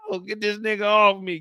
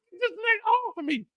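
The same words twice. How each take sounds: First: Said in the usual way. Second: Very high, strained choked squeal; strangled cry. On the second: Retold or imitated. Mo pinned and choked, high strangled squeal. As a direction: choke it out desperately.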